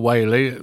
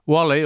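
First: The first vowel rhymes with whale. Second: The first vowel rhymes with doll. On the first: "his coat of arms was three spouting whales" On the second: "Wally or Whaley, nobody knows quite how to pronounce it"

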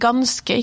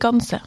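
First: The word is said with a k sound. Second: The word is said without a k sound. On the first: The speaker calls it right. "Det heter ganske" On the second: The speaker calls it wrong. "ikke ganse"

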